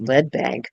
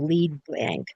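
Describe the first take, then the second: First: The word lead rhymes with bed. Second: The word lead rhymes with seed. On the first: Your money will sink like the heavy metal. "or you could pronounce it lead bank because that's what's going to happen to your money. It's just going to drop lead" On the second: It is the bank's usual name. "something called the"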